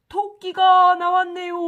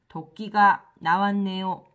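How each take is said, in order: First: It is read with lively, excited feeling. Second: It is read flatly, without feeling.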